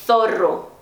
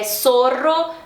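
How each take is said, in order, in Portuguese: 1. A palavra começa com um som de 'th'. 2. A palavra começa com um som de 's'. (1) "na Espanha, ... esse som tipo do T H do inglês, a língua entre os dentes" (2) "na América"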